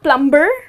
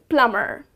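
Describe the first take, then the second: First: A b sound is heard in the middle. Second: No b sound is heard in the middle. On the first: The speaker calls it wrong. "So it's not plumber" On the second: The speaker calls it right. "the letter B is silent"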